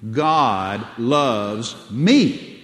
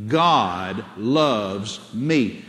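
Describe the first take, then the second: First: Slow "God loves me", landing loud and hard on "me"; emphasis on me. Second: Very slow, each word held and separated; measured declaration for others to repeat; say it out loud. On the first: Preacher drilling the congregation, strong stress on "me". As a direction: punch the final word "me". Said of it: "Put the emphasis on me". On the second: Preacher has congregation say it again, slow declaration. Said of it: "Say it again". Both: Shown as a demonstration.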